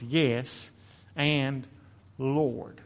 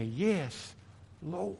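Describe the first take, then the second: First: "Yes" and "Lord" each given weight, set apart by pauses; slow emphatic Yes and Lord; stressed Yes and Lord. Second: "Yes", then a hushed, rising "Lord"; both words stressed, the second softer; emphasis on both words. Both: Shown as a demonstration. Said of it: "Emphasis on both of those words".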